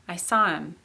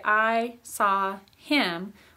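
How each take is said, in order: First: The word 'him' is run together and reduced. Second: The word 'him' is said fully and separately. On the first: "We kind of run it together" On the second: "we don't usually say"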